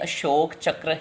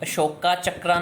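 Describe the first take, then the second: First: Each word ends without a sounded final vowel. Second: Each word ends with a sounded 'a' vowel. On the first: The speaker calls it right. "उसकी आवाज़ silent है, तो हमने अशोक चक्र ही बोलना है" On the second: The speaker calls it wrong. "अशोका चक्रा नहीं बोलना"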